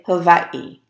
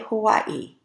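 First: The middle consonant sounds almost like a v. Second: The middle consonant sounds like a plain w. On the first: This is how locals say it. "As almost if there's a little V in there" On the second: This is how outsiders say it. "the people who live in Hawaii don't say Hawaii"

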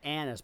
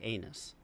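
First: The first vowel is a short 'a' sound. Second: The first vowel is a long 'ay' sound. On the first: This is how the family says the name. "They probably pronounce it Anus" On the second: This is how the spelling reads at first sight. "my brain is going to say anus"

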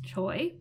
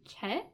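First: The vowel is an 'oy' glide. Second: The vowel is a plain 'eh' sound. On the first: This is the reading first assumed from the spelling. "I thought was pronounced Choi" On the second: This is the reading another person said is closer. "my mom said that it's really more pronounced like Che?"

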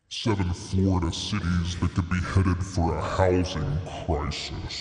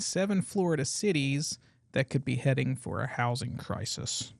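First: It is said in a deep demon voice. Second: It is said in a normal voice.

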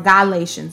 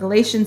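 First: The word is said in an exaggerated preacher-style pronunciation. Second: The word is said in a plain, ordinary pronunciation.

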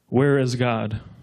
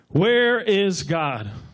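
First: It is said sternly at a moderate loudness. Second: It is said with a clearly raised voice.

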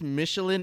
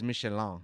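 First: The word is said with an English pronunciation. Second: The word is said with a French pronunciation. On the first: "Michelin is the proper English pronunciation" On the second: "But the French one is Michelin"

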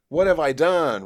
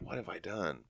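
First: It is said in a full, loud voice. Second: It is said in a quiet whisper.

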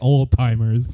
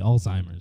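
First: The middle consonant is a t sound. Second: The middle consonant is a z sound. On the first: The speaker calls it wrong. "there's no T in there" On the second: The speaker calls it right. "I say it with a Z"

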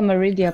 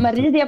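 First: The name is said with English pronunciation. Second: The name is said with Swedish pronunciation. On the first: "på engelska" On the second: "på svenska"

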